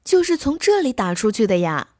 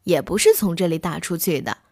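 First: 这 lifted and held as the key word; 这 is the word that carries the question; stress on 这. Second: 是 stressed, with a lower, falling line. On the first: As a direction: lean on 这, asking if it came from right here. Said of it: "你说的那个死蛋儿". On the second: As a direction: stress 是 to deny the claim. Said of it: "大狼先生说". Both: Acted.

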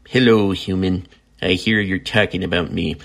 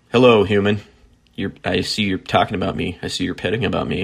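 First: Lightly put-on pet voice, close to his own; [name]'s cat voice. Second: Said in the usual way. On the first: Speaking for the cat he's petting, light cat voice. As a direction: give the cat a voice, just slightly. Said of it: "my cat voice is kind of annoying". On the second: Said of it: "better than me just saying".

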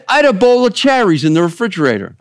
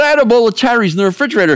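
First: Put-on higher, fast Italian-accented quote. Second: Put-on much higher, quick Italian-accented complaint. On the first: Pastor retelling a comedian's story, Italian accent. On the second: Pastor imitating a comedian's husband, Italian accent. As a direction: lean into a comic Italian accent. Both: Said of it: "I'm trying to do my Italian accent".

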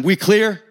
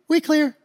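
First: Firm, measured question; imitated tough dad insisting; threatening demand. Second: Very high, meek reply; mock-scared neighbor agreeing; intimidated little guy. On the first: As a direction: press for the answer firmly. Dad asking one more time. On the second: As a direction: squeak it back timidly. Intimidated little dad answering again.

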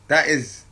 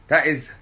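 Both takes have the same delivery.

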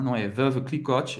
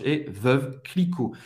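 First: Clicquot ending in a sounded T, the wrong way; wrong pronunciation. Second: Clicquot as kli-KO, T silent, said slowly; correct pronunciation. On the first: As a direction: show the mistake with a hard T on Clicquot. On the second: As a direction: give the right Clicquot, no final T. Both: Shown as a demonstration.

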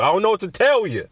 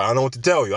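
First: Pitched up, playful no-apology; higher mock shrug. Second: Said in the usual way. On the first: Shown as a demonstration. Shrugging to podcast listeners, higher and cheeky. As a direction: lift the repeat into a cheeky shrug. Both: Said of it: "I'm sorry".

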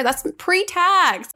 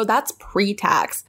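First: PRETAX drawn out high, rising well above usual; exclaimed correction. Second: PRETAX stretched out slowly at usual pitch; a measured, drawn-out PRETAX to make the point; emphatic reminder. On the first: Acted. Correcting people who forget about taxes, exclaimed correction. Exclaims how salary sounds before tax. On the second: Retold or imitated. Telling people about their pay, emphatic reminder. Quotes own reply about salaries.

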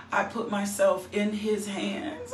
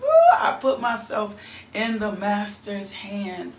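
First: Said in the usual way. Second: Louder with a laugh in the voice; Ooh, I put myself in the master's hands, louder with a laughing cry; joyful cry. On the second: Real, not acted. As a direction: overcome with joy, nearly crying.

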